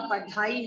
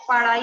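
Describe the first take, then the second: First: पढ़ाई said with the breathy ढ़ sound, padhai; correct pronunciation. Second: पढ़ाई said as parai, a plain flap with no breath; wrong pronunciation. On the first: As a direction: say पढ़ाई with the aspirated ढ़. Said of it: "पढ़ाई होता है". (पढ़ाई का शुद्ध उच्चारण, साँस वाले ढ़ के साथ) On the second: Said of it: "पढ़ाई नहीं होता". (पढ़ाई को ग़लत उच्चारण में, पड़ाई की तरह) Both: Shown as a demonstration.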